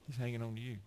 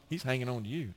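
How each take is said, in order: First: "hanging" stressed, whole line much softer; softer repeat. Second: Said in the usual way. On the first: Shown as a demonstration. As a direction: lean on "hanging" and bring it down soft. Second take softer, stressed hanging.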